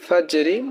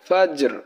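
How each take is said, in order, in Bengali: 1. শব্দটি ছোট i স্বরধ্বনি দিয়ে শেষ হয়। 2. শব্দটি শেষ ব্যঞ্জনধ্বনি দিয়ে শেষ হয়। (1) "ফাজরি ওয়াকফ করলে যজম হয়ে যাবে" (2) "শুধু হরফের উচ্চারণ হবে ফাজর"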